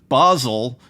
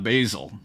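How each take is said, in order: First: It does not sound like the herb name. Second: It sounds like the herb name basil. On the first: The speaker calls it right. "it's Basel" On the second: The speaker calls it wrong. "not Basil"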